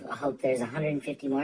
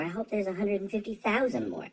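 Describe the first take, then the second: First: Said in the usual way. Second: "thousand" pitched up high; stress on THOUSAND. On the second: Real, not acted. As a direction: lift the voice sharply onto "thousand". Escalates wish, raising the number.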